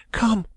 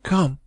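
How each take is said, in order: First: High, urgent woman's cry; cried summons. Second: Calm reverential call. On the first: Young woman urging the lawyer upstairs, high urgent cry. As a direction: call him after her with resolve. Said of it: "she cried". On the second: Young woman at her uncle's door, calm and reverent. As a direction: summon him gently at the deathbed. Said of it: "in a calm and reverential tone". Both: A narrator's reading.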